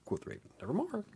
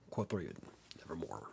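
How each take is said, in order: First: It is read in a Simpsons-style put-on voice. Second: It is read in his normal reading voice.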